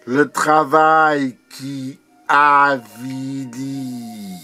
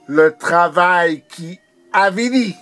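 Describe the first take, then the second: First: Drawn-out poetic refrain; declaimed with long held vowels; measured refrain. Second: Higher, brisker declamation; urgent poetic proclamation; insistent refrain. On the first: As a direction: recite it slowly, pausing inside the phrase. Poem refrain, first measured take. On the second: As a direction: drive the refrain upward with force. Poem refrain repeated more intensely. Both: Acted.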